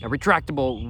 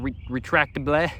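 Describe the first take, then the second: First: Said in the usual way. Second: Slow, halting French accent. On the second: Shown as a demonstration. Vlogger reading the label's French word, attempted French accent. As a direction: sound it out slowly as if French. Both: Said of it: "my French accent".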